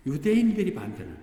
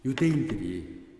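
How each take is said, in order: First: 유대인들이 punched high and loud; stress on 유대인들이. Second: Said in the usual way. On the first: Shown as a demonstration. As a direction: hit 유대인들이 hard and high.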